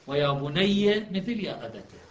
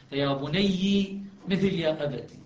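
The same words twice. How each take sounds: First: Slowly, بني as "bunayya", أبتي as "abata"; measured demo, بني rhyming in "-a" with أبتي; fatha endings. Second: Slowly, بني as "bunayyi", أبتي as "abati"; measured demo, بني rhyming in "-i" with أبتي; kasra endings. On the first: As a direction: end both بني and أبتي on an "a" vowel. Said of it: "تبقى الفتحة". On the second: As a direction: end both بني and أبتي on an "i" vowel. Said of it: "وأبقى الكسرة دالة عليها". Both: Shown as a demonstration.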